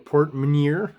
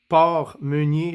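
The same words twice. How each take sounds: First: The name is pronounced with English sounds. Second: The name is pronounced with French sounds. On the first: "I guess you would say in English" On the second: "if I pronounce this properly, French-wise"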